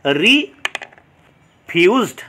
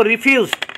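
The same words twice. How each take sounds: First: refused very slowly, long pause after re; syllable by syllable. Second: Said in the usual way. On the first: Shown as a demonstration. Teacher showing students two syllables, slowly split. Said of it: "syllable দেখতে পাচ্ছি". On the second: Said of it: "তাহলে এখানে দুটো".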